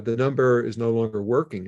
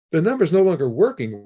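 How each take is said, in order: First: Said in the usual way. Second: Higher and faster, in disbelief; incredulous repeat. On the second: Retold or imitated. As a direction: throw the words back, stunned.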